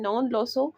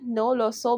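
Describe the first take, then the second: First: The first word ends with an n sound. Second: The first word ends in a plain vowel. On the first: The speaker calls it right. "नॉन लो सो जो है वो perfect word है" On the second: The speaker calls it wrong. "ज़्यादातर तो नो लो सो बोलते हैं"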